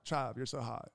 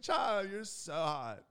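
First: Said in the usual way. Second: Put-on high, slow swooning girl voice. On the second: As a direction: imitate a girl cooing, stretched out. Imitates admiring girls.

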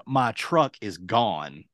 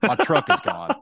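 First: Slow, deliberate confirmation; retold emphatic repeat. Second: Quicker, slightly raised blurt; retold urgent news. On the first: Stranded man confirming to shocked friend, slow and deliberate. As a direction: spell out the bad news slowly. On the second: Stranded man interrupting friend on phone, urgent blurt.

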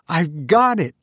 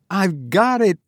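First: Bursting with discovery; sudden eureka, high and eager; excited cry. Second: Climbing higher with excitement; eureka, pitched even higher; more excited cry. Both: A narrator's reading. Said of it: "I cried".

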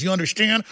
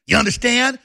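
First: Mock-friendly "understand". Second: "understand" pushed hard and higher, demanding; hectoring "understand". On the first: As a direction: ask "understand" sweetly. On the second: Pretend. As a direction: press "understand" as a threat. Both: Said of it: "I want that to be a friendly message".

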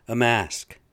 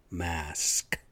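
First: "mask" punched much louder; a loud scornful "A mask"; stressed repeat. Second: Said in the usual way. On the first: Real, not acted. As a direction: hit "mask" hard in disbelief. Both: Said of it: "repeats word for emphasis".

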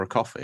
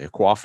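First: Said in the usual way. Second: "coffee" as a New York "cwoffee"; New York pronunciation. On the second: Shown as a demonstration. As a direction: add a w glide to "coffee", New York style. Repeats coffee in New York style.

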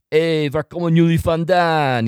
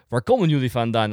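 First: Loud, higher hail in Dutch; calling out. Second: Said in the usual way. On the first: Retold or imitated. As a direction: call out to passing strangers in Dutch. Rehearses calling out to passing Dutch.

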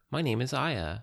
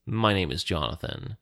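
First: Said in the usual way. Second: Jonathan's bit of a put-on Alondron accent; lightly voiced Alondron accent on "My name is Jonathan". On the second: Jonathan introduces himself to the stranger in a mild Alondron accent. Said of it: "in his most convincing Alondron accent".

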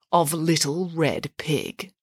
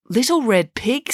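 First: Said in the usual way. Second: "Little Red Pig" as a higher, rising question; questioning echo. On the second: A narrator's reading. Derek questions Nanny's story title, puzzled and questioning. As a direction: query "Little Red Pig" with raised pitch.

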